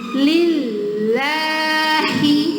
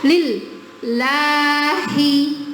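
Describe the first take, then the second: First: The L sound almost stops but keeps going. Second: The L sound is cut off completely. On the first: The speaker calls it right. "mau berhenti tapi nggak berhenti" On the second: The speaker calls it wrong. "itu syiddah"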